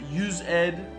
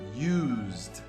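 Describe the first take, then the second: First: The ending is said as a separate syllable. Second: The word is said as one syllable. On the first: The speaker calls it wrong. "If I have to hear use ed one more time, I'm going to go crazy" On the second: The speaker calls it right. "we pronounce this word used"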